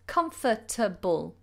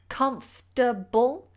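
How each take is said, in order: First: The word is said with four syllables. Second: The word is said with three syllables. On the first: "or you can say it with four syllables" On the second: "You can either say three syllables"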